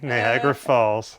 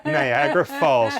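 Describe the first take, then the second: First: "Niagara Falls" lower and slow; slow teasing repeat; slow drawn-out repeat. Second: "Niagara Falls" sung out high; high teasing exclamation; teasing call. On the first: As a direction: drag it out to rub it in. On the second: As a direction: tease her tears with a high "Niagara". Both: Real, not acted.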